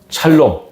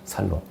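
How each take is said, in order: First: The word starts with an sh sound. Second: The word starts with a plain s sound.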